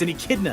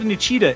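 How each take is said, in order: First: The word sounds like 'echidna'. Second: The word sounds like 'an cheetah'. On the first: The speaker calls it right. "it's an echidna" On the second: The speaker calls it wrong. "it's not an cheetah"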